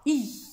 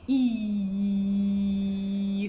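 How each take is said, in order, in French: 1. La langue se ferme complètement, ne laissant presque aucun passage. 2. La langue laisse un léger passage ouvert. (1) "ne dites pas i. C'est faux" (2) "C'est ouvert"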